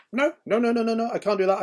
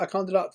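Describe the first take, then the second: First: High, loud mock whine of refusal; hammed-up childish no, no, no; stubborn refusal. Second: High, loud mock refusal, winding down; stubborn refusal. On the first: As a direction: play the contrary friend digging his heels in, much higher and louder. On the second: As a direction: repeat the refusal, still much higher and louder. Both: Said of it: "he'd be like".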